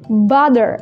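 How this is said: The middle t sounds like a d. "Tapi American, mereka menyebutnya dengan butter"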